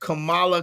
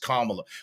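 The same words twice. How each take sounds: First: The name is pronounced like the wrestler's name. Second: The name is pronounced differently from the wrestler's. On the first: This is how the name was always heard before. "I've always heard Kamala, Kamala, Kamala, like the wrestler" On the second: This is the newly heard way of saying the name. "Now all of a sudden she's Kamala"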